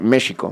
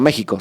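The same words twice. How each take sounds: First: The x is said like a soft sh. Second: The x is said like a harsh Spanish j. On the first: The speaker calls it right. "se tiene que pronunciar México" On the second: The speaker calls it wrong. "se tiene que pronunciar no México"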